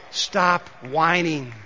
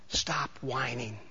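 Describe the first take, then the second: First: Said in the usual way. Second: Soft, low and slow, almost under the breath; quiet, deliberate warning; hushed. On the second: Shown as a demonstration. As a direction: drop the voice way down and draw it out. First quiet take of the slogan.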